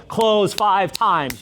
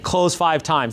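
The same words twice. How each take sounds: First: Slow emphatic slogan. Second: Said in the usual way. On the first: Shown as a demonstration. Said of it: "slow emphatic catchphrase". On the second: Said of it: "same phrase, plain".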